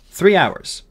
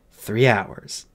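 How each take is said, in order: First: Higher, louder, decisive answer; boy's answer. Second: Doubtful echo. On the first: Boy reporting the time to the fairy, firm and high. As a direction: give the time firmly, pitch up. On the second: Fairy weighing the time over the patient, subdued doubt. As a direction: repeat it doubtfully, without lift. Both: Acted.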